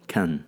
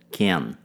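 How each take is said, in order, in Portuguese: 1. A vogal é um som de schwa fraco. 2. A vogal é plena e tônica. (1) "a pronúncia de can é feita com o schwa sound" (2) "Caso eu queira enfatizar o can"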